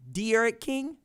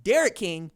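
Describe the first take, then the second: First: De'Aaron said slowly as two parts; slow, careful De'Aaron; careful emphasis. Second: Derek run together with a loud first syllable; wrong emphasis. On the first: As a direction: separate the De from Aaron in De'Aaron. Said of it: "don't mess up and put the wrong emphasis". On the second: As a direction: punch the front of Derek. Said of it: "emphasis on the wrong syllable". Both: Shown as a demonstration.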